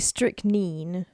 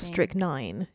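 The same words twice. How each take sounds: First: It uses the non-American pronunciation of the word. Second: It uses the American pronunciation of the word. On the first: "It can be strychnine" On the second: "or strychnine in the U S"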